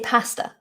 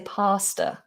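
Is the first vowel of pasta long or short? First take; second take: short; long. First: The first vowel is short. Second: The first vowel is made longer. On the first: "I say pasta" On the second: "some people say pasta if they're very posh"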